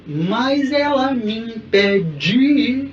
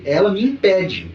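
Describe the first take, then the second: First: "impede" sung slowly with the stress shifted off "pe"; misplaced stress. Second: "impede" spoken plainly, stress on "pe"; correct stress. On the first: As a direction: drag "Mas ela me impede" with the wrong syllable stressed. ("impede" cantado com a tônica errada) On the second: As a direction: say "ela me impede" with natural stress. ("impede" com a tônica certa em "pe") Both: Shown as a demonstration. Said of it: "Não é "me impede".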